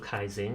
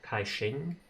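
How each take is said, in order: First: The second part starts without an 'sh' sound. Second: The second part starts with an 'sh' sound.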